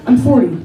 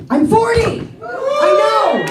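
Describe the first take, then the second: First: Said in the usual way. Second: Forty shouted up high; celebrating hitting forty; excited proclaim. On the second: Real, not acted. Comic telling the crowd she is forty, shouting it excitedly. Announcing her age.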